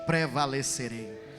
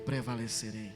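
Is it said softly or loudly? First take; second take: loudly; softly. First: It is said louder and more forcefully. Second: It is said at a normal, softer volume.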